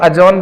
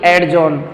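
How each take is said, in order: First: The d sound is silent before the j. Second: The d sound is pronounced before the j. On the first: The speaker calls it right. "इसको अजॉन बोलते हैं" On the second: The speaker calls it wrong. "ना कि एडजॉन"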